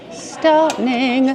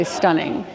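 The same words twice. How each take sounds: First: STUNNING drawn out in a singsong; emphatic STUNNING. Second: Said in the usual way. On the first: Real, not acted. Gushing to followers over a dress, drawn-out singsong STUNNING. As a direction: stretch both syllables of STUNNING, lifting the pitch.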